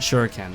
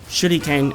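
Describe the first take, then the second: First: The word has an English pronunciation. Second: The word has a Japanese pronunciation. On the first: "we pronounce it shuriken" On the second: "the way you say it in Japanese"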